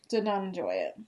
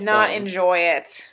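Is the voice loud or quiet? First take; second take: quiet; loud. First: It is said at a quieter, normal volume. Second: It is said louder, closer to the microphone.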